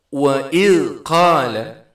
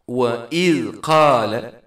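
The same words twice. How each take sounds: No difference in how they are said.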